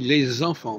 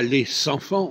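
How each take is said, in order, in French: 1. Les mots sont liés avec un son z. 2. Les mots sont liés avec un son s. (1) "on dit les enfants. Donc, le S devient un Z" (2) "On ne dit pas les enfants"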